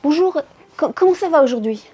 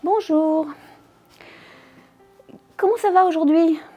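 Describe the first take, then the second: First: It sounds rushed and hurried. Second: It sounds disgusted.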